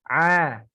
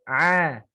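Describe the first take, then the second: No difference in how they are said.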